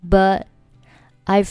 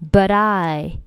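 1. but 末尾的 t 不发音。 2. but 的 t 连读到 I 里。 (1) "简单的就是but 末尾不发音" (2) "这里but 和I 可以选择连起来but I"

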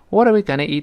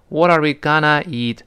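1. 'gonna' 这个词一带而过，读得快。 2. 'gonna' 这个词读得慢。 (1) "gonna 就舌尖一弹跳就过去了" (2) "gonna 呢千万不能读得慢，不能读成…这好别扭啊"

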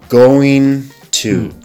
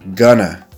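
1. 两个词都完整、分开地读。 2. 这两个词连在一起，读成一个短的弱读形式。

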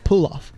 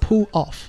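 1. 这两个词是连在一起说的。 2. 这两个词是分开说的。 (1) "连读pull off" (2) "不要读作pull off"

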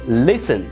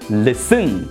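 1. 重音在第一个音节。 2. 重音在第二个音节。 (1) "listen 这个单词的重音是在第一个音节上" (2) "如果重音是在第二个音节上，这个单词应该读作listen，但是这样读是错误的"

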